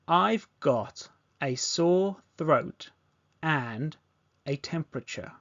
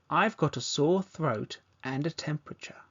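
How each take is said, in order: First: The sentence is spoken slowly. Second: The sentence is spoken at a normal pace. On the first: "Repeat this back slowly" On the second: "Now let's say at a natural pace"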